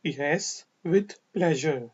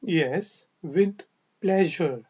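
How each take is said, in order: Both takes have the same delivery.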